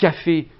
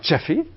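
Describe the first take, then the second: First: The first consonant is a plain 'k' sound. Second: The first consonant is a palatalized 'ch' sound.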